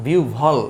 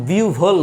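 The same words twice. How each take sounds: First: বিউ ভল with a short ɔ, set down lower; বিউ ভল said carefully as the right form; correct pronunciation. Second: বিউ ভোল with a long o, marked as wrong; wrong pronunciation. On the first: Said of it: "এইটার উচ্চারণটা". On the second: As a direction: say বিউ ভোল as the mistaken version. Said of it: "বিউ ভোল না". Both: Shown as a demonstration.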